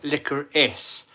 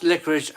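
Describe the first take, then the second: First: "licorice" ending in a crisp "-iss", drawn out slowly; preferred pronunciation. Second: "licorice" ending in a hushing "-ish"; wrong pronunciation. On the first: Host teaching viewers the proper way, "licorice" slowly with a hissed -iss ending. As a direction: say "licorice" slowly as LICK-uh-riss. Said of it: "Always pronounce it". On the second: Host showing viewers how never to say it, "licorice" with a -ish ending. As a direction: say "licorice" as LICK-uh-rish. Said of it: "Never pronounce licorice as licorice". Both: Shown as a demonstration.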